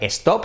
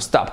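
First: An extra vowel sound comes before the s. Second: The word starts directly with the s sound. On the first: The speaker calls it wrong. "A partir de ahora nada de stop" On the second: The speaker calls it right. "sino stop"

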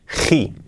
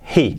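First: The h is a harsh, strongly aspirated sound. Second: The h is a soft, light breath. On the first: The speaker calls it wrong. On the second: The speaker calls it right.

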